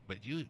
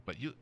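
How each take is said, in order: Both takes have the same delivery.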